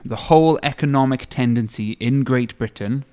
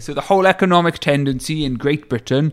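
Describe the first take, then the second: First: It is said in his normal voice. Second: It is said in a put-on character voice.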